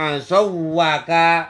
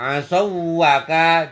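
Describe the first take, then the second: No difference in how they are said.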